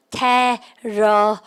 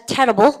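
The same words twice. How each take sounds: First: TERRIBLE broken into slow, stretched syllables. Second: Said in the usual way. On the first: Shown as a demonstration. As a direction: sound out "Terrible" very slowly, piece by piece. ("Terrible"을 한 음절씩 아주 천천히) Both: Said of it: "발음 갖다 합시다".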